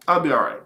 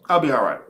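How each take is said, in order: Both takes have the same delivery.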